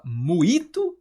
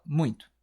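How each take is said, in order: First: "muito" without the nasal, as mu-i-to; wrong, oral vowels. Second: "muito" with nasal diphthong, like muin-to; usual nasal form. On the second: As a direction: say "muito" through the nose as "muĩ-tu". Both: Shown as a demonstration. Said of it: "você fala muito ou você fala muito?".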